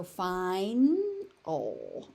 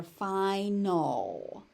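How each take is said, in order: First: Slow "final" as fine... ol; split after N. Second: Slow "final" as fi... nol; split before N. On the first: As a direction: hold the N of "final", then add the L syllable. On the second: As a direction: open "fi", then start the next syllable of "final" on N. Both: Shown as a demonstration. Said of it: "So final or final".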